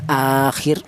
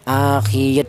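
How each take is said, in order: First: The ending is kept short. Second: The ending is drawn out long. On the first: The speaker calls it right. "tapi akhir seperti itu" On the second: The speaker calls it wrong. "jangan panjang"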